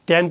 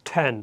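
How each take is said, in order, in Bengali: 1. t ধ্বনিটি সহজ, বাতাসের কোনো ঝলক নেই। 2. t ধ্বনিতে বাতাসের জোরালো ঝলক আছে। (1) "মানে আগে যত থেকে আমরা টি পড়ছি ট" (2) "ঠর মতো করে উচ্চারণটা করব"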